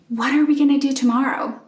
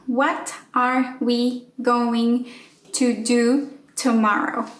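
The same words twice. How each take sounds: First: The words run together quickly with reduced vowels. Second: Each word is said separately, with gaps. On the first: The speaker calls it right. "that was super fast" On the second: The speaker calls it wrong. "I would separate each word and I would just kind of put each word in a box"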